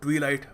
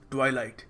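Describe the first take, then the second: First: The first syllable sounds like 'twee'. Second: The first syllable sounds like 'twai'. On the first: The speaker calls it wrong. "कभी इसको ट्वीलाइट मत कहना" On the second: The speaker calls it right. "It is ट्वाइलाइट"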